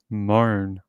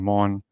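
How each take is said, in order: First: The vowel is a long 'oh' sound. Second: The vowel is a short 'o' sound. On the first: This is how the news presenters say it. "they pronounce his name uh, Moan, almost like, you know, M O A N" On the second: This follows the spelling, which has no A. "I was saying Mon"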